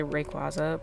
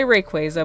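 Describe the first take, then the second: First: "Rayquaza" said ray-KWAH-zuh. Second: "Rayquaza" said ray-KWAY-zuh; Rayquaza with long A. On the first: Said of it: "I know some people say Rayquaza". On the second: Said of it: "I say Rayquaza". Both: Shown as a demonstration.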